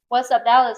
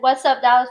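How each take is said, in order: First: It sounds like a puzzled question. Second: It sounds like an excited exclamation.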